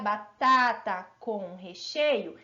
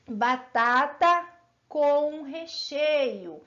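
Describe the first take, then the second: First: Said in the usual way. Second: Slow, drawn-out batata com recheio; slow demo. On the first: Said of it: "Se eu falar". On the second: Shown as a demonstration. Teacher to pupils, slowly spelling out the phrase. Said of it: "se eu falar assim".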